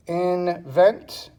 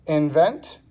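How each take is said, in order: First: "invent" slowly split as in, vent; syllable by syllable. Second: Said in the usual way. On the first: Shown as a demonstration. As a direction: break "invent" into two separate beats. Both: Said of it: "two syllables".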